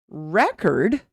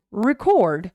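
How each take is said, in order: First: "Record" said REC-ord, the noun; stress on first syllable. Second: "record" said re-CORD, the verb; short "re", strong CORD in "record"; stress on second syllable. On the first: Teacher contrasting noun with verb, stressed first syllable of "Record". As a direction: punch REC in "Record", weak second syllable. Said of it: "when it's a noun, the stress is here". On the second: Teacher contrasting verb with noun, stressed second syllable of "record". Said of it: "When it's the verb, the stress is here". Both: Shown as a demonstration.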